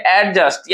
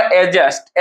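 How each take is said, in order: First: एडजस्ट broken into two parts, एड and जस्ट; teacher separating एड from जस्ट in एडजस्ट; split into syllables. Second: Said in the usual way. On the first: Shown as a demonstration. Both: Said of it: "एडजस्ट को हम लोग क्या लिखते हैं".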